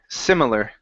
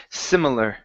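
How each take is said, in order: The two takes are said the same way.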